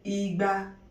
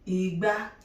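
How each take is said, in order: First: Both syllables are on the same mid pitch. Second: The second syllable is pitched higher than the first. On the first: It means two hundred. "two hundred, Igba, re, re" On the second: It means calabash. "Calabash, Igba, re, mi"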